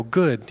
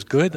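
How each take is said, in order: First: Said in the usual way. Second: GOOD lifted into a doubting question; puzzled echo. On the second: Retold or imitated. Man questioning the pastor's reply, puzzled GOOD. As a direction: echo GOOD back with rising, mild surprise.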